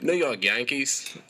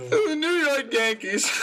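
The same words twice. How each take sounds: First: Put-on slow Aussie accent; drawn-out Australian accent. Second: High, slow mock Australian accent; high put-on Aussie voice, drawn out; imitating an accent. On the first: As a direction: say it slowly in his Aussie voice. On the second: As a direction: parrot the Aussie voice to tease him. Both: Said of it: "That was really good".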